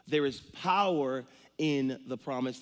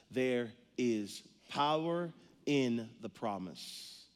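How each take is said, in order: First: Said in the usual way. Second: Slow, weighty delivery of the theme; slow emphatic statement. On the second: Real, not acted. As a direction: land the big idea slowly. Sermon big idea, slow.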